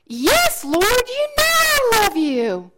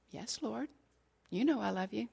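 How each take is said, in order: First: Higher, louder, slower insistent reply; emphatic plea. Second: Much softer, subdued reply; hushed answer. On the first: Peter's third answer to Jesus, loud and pleading. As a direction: press it out with all his heart. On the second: Peter quietly answering Jesus by the fire, hushed and subdued. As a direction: answer almost under the breath, humbled. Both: Acted.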